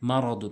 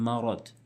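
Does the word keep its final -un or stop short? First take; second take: keeps -un; stops short. First: The word ends with a full -un syllable. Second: The word stops short on the final d. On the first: The reading continues without stopping. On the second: The reader stops on this word. "ওয়াকফ করলে মারাদ"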